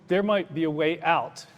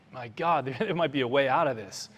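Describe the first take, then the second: First: Said in the usual way. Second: Hopeful realization. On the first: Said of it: "I said". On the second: Retold or imitated. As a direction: let the escape idea break through with a small laugh. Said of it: "you could see in his eyes".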